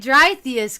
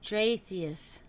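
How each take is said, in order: First: The first syllable sounds like 'dry'. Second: The first syllable sounds like 'dray'. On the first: "I guess that's like the German pronunciation" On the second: "Dre and Atheist"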